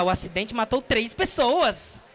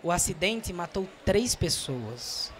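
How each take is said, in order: First: Sad news with misplaced lively tune; inappropriately bright announcement; wrongly upbeat. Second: Slow, low, soft grave news; serious, sorrowful falling tone; descending, sad. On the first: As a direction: swing the pitch up as if cheerful. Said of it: "Você não vai falar". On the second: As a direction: let the pitch fall away seriously. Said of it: "Você vai caindo". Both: Shown as a demonstration.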